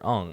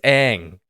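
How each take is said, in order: First: The name is said rhyming with 'long'. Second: The name is said rhyming with 'bang'. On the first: This is the name as the movie says it. The speaker calls it wrong. "that's the the main character, Ong" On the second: This is the name as the original show says it. The speaker calls it right. "It's Aang. Like it's it's it's there's no confusion"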